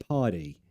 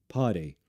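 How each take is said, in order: No difference in how they are said.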